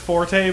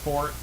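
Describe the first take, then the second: First: It is said with the American pronunciation. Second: It is said with the British pronunciation. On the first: "In American, it is forte" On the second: "but in British, it's fort"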